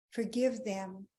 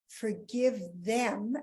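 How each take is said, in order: First: Said in the usual way. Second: Forgive them drawn out slowly with a rise; slow first try. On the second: Shown as a demonstration. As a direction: stretch out Forgive them, then rethink it. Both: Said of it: "let's get this right".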